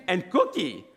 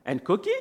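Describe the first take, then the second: First: Higher voice, falling finish; child's firm haggling. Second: Higher voice, rising question; child's hopeful haggling. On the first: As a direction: imitate a kid stating a demand. Son insists on extra treat. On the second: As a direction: imitate a kid angling for more. Son haggles for extra treat. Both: Retold or imitated.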